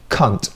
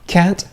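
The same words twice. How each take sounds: First: It is said in a British accent. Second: It is said in an American accent. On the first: "U K" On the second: "U S"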